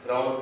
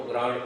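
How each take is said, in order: First: Said in the usual way. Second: گرانٹ said for "ground", with a changed vowel and ending; mispronounced ground. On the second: Shown as a demonstration. Teacher showing students their slip, mispronounced گرانٹ for "ground". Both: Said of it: "گراؤنڈ کو گرانٹ بولتے ہیں".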